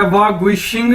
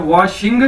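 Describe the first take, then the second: First: वा गुई शिंग with an extra गुई in the middle; wrong syllable added. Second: वा शिंग in two clean syllables, rising on शिंग; correct pronunciation. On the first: Teacher shows students the wrong way, वा गुई शिंग said with extra गुई. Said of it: "गुई लगा दिया है तो it is wrong". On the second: Teacher shows students the right way, वा शिंग in two clean syllables. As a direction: say वा शिंग with no गुई between. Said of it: "आपने just कितना करना है". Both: Shown as a demonstration.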